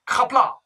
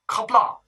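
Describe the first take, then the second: The two takes are said the same way.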